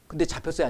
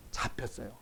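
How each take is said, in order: First: Said in the usual way. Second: Whispered, barely voiced answer; whispered reply to his own question; hushed answer. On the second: Real, not acted. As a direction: breathe the answer out as if confiding. Answers own question under breath.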